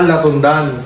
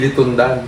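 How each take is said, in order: First: The first vowel is an open 'a' sound. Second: The first vowel is a close 'i' sound. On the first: The speaker calls it right. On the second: The speaker calls it wrong. "Hindi litundan"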